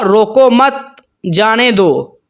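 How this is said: The pause comes right after 'mat'.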